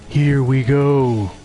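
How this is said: It is said in an imitation of Duke Nukem.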